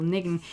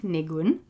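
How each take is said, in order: First: Niggin stressed on the first syllable; Yiddish niggin. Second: Nigun with stress on gun; English-style nigun, second syllable stressed. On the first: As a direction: say niggin with the weight on nig. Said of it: "the stress on the first syllable". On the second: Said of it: "the stress is on the second". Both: Shown as a demonstration.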